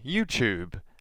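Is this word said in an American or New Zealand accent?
New Zealand. It is said in a New Zealand accent. "how we would say"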